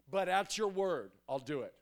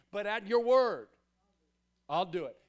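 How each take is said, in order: First: Said in the usual way. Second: "But at your word" pushed out louder, "word" falling; emphatic repeat. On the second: Retold or imitated. Peter answering Jesus, louder and emphatic on "word". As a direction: lean hard into "word" with a firm fall.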